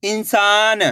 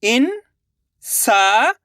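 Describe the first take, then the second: First: Said in the usual way. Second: इंसान drawn out slowly; syllable by syllable. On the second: Shown as a demonstration. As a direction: sound out इंसान. (इंसान को अक्षर-अक्षर बोलना) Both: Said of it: "अब आगे देखिए".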